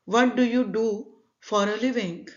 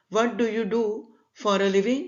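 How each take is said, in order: Both takes have the same delivery.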